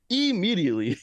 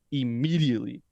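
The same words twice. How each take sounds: First: IMMEDIATELY pitched high, then falling; emphatic IMMEDIATELY. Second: Said in the usual way. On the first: Real, not acted. Host insisting the actor gets an Emmy, stressing IMMEDIATELY. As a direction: hammer home IMMEDIATELY in a higher voice.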